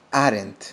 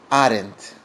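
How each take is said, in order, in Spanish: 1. Se dice como una sola sílaba contraída. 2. Se dice como una sola sílaba contraída.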